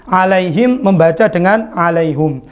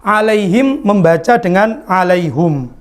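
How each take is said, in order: No difference in how they are said.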